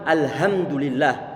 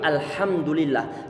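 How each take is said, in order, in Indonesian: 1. Bunyi h-nya adalah h ringan biasa. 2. Bunyi h-nya adalah h dalam dan serak dari tenggorokan. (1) "nggak boleh juga huruf ha ini kita ucapkan sebagaimana huruf ha"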